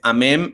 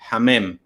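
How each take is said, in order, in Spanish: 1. La palabra empieza sin sonido h. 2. La palabra empieza con una h suave, aspirada. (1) "No es ni la H totalmente muda" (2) "Es un sonido suave"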